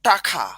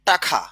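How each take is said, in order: The two takes are said the same way.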